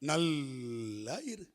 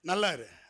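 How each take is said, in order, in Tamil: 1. இது கசப்பான, நக்கலான தொனியில் சொல்லப்படுது. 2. இது சாதாரண, நேர்மையான தொனியில் சொல்லப்படுது.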